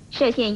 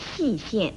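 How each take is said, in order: First: The first syllable is pronounced shè. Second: The first syllable is pronounced xì. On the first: The speaker calls it right. "射县一词" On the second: The speaker calls it wrong. "大家都念成了细县，这是不妥当的"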